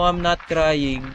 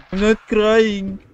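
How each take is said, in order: First: Said in the usual way. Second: Higher, long drawn-out mock wail; mock crying. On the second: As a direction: playfully whine it out, stretching the words. (kunwaring umiiyak) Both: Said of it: "Why you cry again?".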